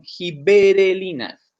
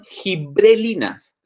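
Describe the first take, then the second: First: The word has five syllables, gi-be-re-li-nas. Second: The word has four syllables, gi-bre-li-nas. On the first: The speaker calls it right. "son giberelinas" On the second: The speaker calls it wrong. "no son gibrelinas"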